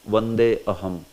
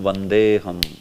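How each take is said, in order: First: A separate 'a' starts the second word. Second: The words merge with no separate 'a' sound. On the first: The speaker calls it wrong. "somebody may pronounce" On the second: The speaker calls it right. "it is pronounced as Vandeham instead of Vande Aham"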